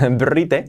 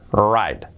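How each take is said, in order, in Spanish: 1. La palabra empieza con sonido B. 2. La palabra empieza con sonido R.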